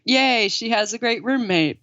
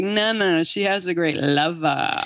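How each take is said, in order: First: Light mock cheer; family's naive delight. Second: Last word stretched out with relish; mock-sultry emphasis on "lover"; knowing correction. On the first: Family delighted by the roommate, lightly mocked cheer. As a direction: lightly imitate innocently pleased relatives. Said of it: "they're just like". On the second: Correcting the naive family about the roommate, knowing relish. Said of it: "it's like".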